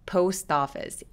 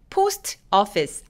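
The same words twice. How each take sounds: First: A tensed t links into office. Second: The two words are said apart. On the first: The speaker calls it right. "약간 된 소리를 내서 office 이렇게 연결됩니다" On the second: The speaker calls it wrong. "아니고"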